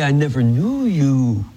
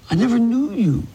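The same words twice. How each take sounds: First: Said in the usual way. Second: "I never knew you" pitched high, falling at the end; emphatic repeat. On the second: Retold or imitated. Jesus turning away false followers, "I never knew you" high and emphatic. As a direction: lift "knew you" high for emphasis, then let it fall.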